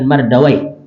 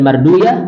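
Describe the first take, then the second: First: The name ends with an 'awai' sound. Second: The name ends with a 'uyah' sound. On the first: It is the original form scholars know. "atau bisa dibaca dengan Mardawai" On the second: It avoids an ending that sounds like a devil's name. "Ini bisa dibaca dengan Marduyah"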